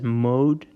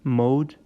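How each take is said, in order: First: The vowel is a long gliding 'oh' sound. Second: The vowel is a long gliding 'oh' sound.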